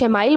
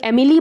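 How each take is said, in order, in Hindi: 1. इसे 'ile' ध्वनि के साथ खत्म होते हुए बोला जाता है। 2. यह अंग्रेज़ी नाम Emily जैसा बोला जाता है। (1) "कुछ एमाइल बोलते हैं" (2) "कुछ लोग एमिली बोलते हैं"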